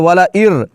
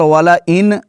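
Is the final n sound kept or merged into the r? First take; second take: merged; kept. First: The n sound is merged into an r sound. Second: The n sound is pronounced clearly at the end. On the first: The speaker calls it right. "बल्कि वाला इर, हमज़ा के बाद रॉ की आवाज़" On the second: The speaker calls it wrong. "यहाँ पर वाला इन नहीं पढ़ते"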